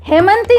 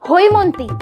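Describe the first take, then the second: First: The first vowel is the plain sound 'e'. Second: The first vowel is the gliding sound 'oi'. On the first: The speaker calls it wrong. "হেমন্তী নয়" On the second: The speaker calls it right. "প্রথমত ওর নাম হৈমন্তী"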